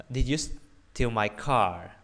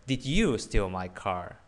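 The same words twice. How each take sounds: First: Slow question weighted on "car"; stress on CAR. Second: "you" picked out, rest of question following; stress on YOU. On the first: Teacher shows stress changes meaning, stressed "car". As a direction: lean on the final word "car". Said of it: "I'm asking more about". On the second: Teacher asks who did it, stressed "you". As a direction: hit "you" hard in the question. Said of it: "asking if it was you". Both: Shown as a demonstration.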